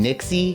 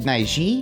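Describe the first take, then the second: First: The name has a 'ks' sound in the middle. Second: The name has a 'j' sound in the middle. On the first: This is how other reviewers say the name. "they call them Nixie" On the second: This is the speaker's guess at the original Chinese pronunciation. "I want to say that you'd pronounce it Naiji"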